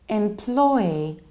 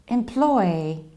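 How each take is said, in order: First: The only stress is on the middle syllable. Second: The only stress is on the middle syllable.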